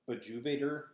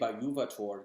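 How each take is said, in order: First: The middle consonant sounds like an English J. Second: The middle consonant sounds like an English Y. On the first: The speaker calls it wrong. "It looks like" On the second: The speaker calls it right. "the J should be more of a Y sound"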